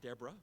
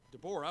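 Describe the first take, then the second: First: The middle vowel is reduced, not a clear O. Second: The middle vowel is a clear O sound. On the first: The speaker calls it wrong. "It's not Deborah" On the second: The speaker calls it right. "it has an O there"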